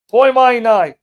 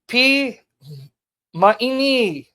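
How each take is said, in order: First: It is said with Erasmian scholarly vowel sounds. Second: It is said with Modern Greek vowel sounds. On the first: The speaker calls it wrong. "Rasman way would be" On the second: The speaker calls it right. "I think, how you guys would pronounce it"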